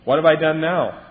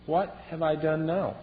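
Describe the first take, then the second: First: Louder, protesting, fed-up whine; exasperated youngest sibling. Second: Slow, mild, bewildered question; innocent youngest brother. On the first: Retold or imitated. Youngest child protesting to bossy siblings, loud exasperation. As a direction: throw it back at them, indignant. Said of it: "I was the youngest". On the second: Acted. David to his angry older brother, gentle and slow. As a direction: ask it gently, genuinely puzzled. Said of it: "And he just asked".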